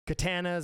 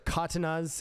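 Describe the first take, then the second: First: The word is said with an anglicized pronunciation. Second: The word is said with a Japanese-style pronunciation. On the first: The speaker calls it wrong. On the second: The speaker calls it right.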